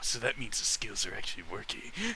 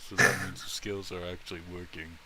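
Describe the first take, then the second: First: It is said in an edgy, Batman-like voice. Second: It is said in a flat, monotone voice. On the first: "It's something super edgy, like" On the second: "he probably sounds super monotone"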